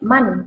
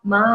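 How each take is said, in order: First: The syllable ends with an n sound. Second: The syllable ends on a long open vowel. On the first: The speaker calls it wrong. "tidak man" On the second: The speaker calls it right. "tanda fathah tanwin kalau dia wakaf di belakang tidak dibaca tanwinnya, baca panjang"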